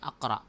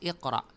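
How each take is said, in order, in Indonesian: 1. Kata ini diawali vokal a. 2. Kata ini diawali vokal i. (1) "hindi tinatawag na sabihin natin ay akra" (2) "Pagkus iqra"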